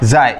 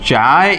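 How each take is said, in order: First: The word begins with a z sound. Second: The word begins with a ch sound. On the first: "ઝેરોક્સમાં ઝેરોક્સ બોલાય ને, ઝાય ઝાય બોલેંગે" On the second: "ચાય બોલી શકો છો"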